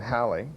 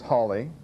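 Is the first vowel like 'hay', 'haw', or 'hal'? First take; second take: hal; haw. First: The first vowel sounds like 'hal'. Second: The first vowel sounds like 'haw'. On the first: This is how it is usually said today. "we usually think of it today as" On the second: This is likely how the owner said his name. "probably how Sir Edmund would have pronounced his surname"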